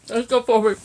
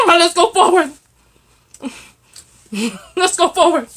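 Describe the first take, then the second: First: Said in the usual way. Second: Loud and high through a laugh; bursting with laughter. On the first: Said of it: "composed repeat". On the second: Real, not acted. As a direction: laugh out the words. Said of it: "laughing repeat".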